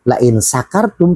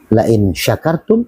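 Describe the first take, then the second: First: The verb begins with an 's' sound. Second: The verb begins with an 'sh' sound. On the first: It means if you are drunk. The speaker calls it wrong. "pakai sin" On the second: It means if you are grateful. The speaker calls it right. "artinya barang siapa yang bersyukur"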